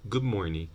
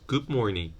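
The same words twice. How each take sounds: The two takes are said the same way.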